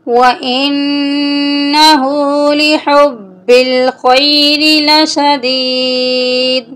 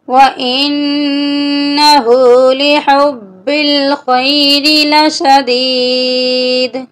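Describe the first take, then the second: The two takes are said the same way.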